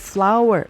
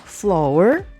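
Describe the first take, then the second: First: It is said exactly like the word 'flower'. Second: It is said like 'flor', following the spelling. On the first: The speaker calls it right. "tapi flower, seperti flower bunga" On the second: The speaker calls it wrong. "bacanya bukan flour"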